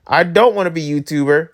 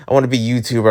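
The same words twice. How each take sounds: First: Firm refusal at normal pitch; emphatic quoted refusal; present-day refusal. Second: Low, quick imitation of past ambition; mock wishful younger self; younger self wishing. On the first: Retold or imitated. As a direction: reject the old dream outright. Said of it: "I'm like". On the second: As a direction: recite an old dream in a low, hurried voice. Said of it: "I was like".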